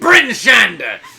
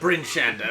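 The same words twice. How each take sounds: First: It is said in the exaggerated Bryn Shander accent. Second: It is said in a plain East Haven accent.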